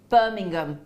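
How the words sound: The final G is clearly sounded. This is how a local says it. The speaker calls it right. "you don't even pronounce the H ... but you say the G"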